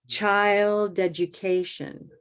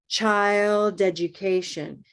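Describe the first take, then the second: Both takes have the same delivery.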